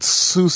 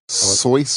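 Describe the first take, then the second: First: The vowel sounds like 'oo'. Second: The vowel sounds like 'oy'. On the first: This is the common way people say it. The speaker calls it wrong. "not how you pronounce his name?" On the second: This may be the name's original pronunciation. The speaker calls it right. "Isn't it like Soyce or something like that?"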